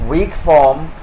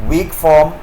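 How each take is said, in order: The two takes are said the same way.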